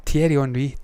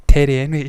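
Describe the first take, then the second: First: Thierry Henry said the French way; French pronunciation. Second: Terry Henry said the English way; anglicised pronunciation. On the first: Vlogger trying out a name for viewers, French pronunciation. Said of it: "He's French". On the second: Vlogger unsure of a French name, anglicised pronunciation. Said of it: "not got a fucking clue if I'm saying it right". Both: Shown as a demonstration.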